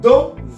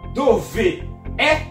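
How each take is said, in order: First: The final vowel of dove is dropped. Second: Both vowels are pronounced separately. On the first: The speaker calls it right. "on enlève la voyelle dans dove et on remplace la voyelle par un apostrophe" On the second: The speaker calls it wrong. "Au lieu de dire dove est"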